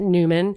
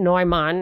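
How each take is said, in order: First: The name is said in an anglicized form. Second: The name is said in its original form. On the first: This is how the family likely says it. "I'm sure they pronounce it Newman" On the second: This is the name's true pronunciation. "is how he'd really be pronounced"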